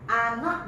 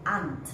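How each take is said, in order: First: Two separate words are said in full. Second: The words are joined into one contracted word.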